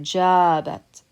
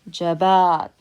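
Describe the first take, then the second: First: The stress is on the first syllable. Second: The stress is on the second syllable. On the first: "We're stressing this part of the word because that's longer" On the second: "Now the stress would be in the second syllable"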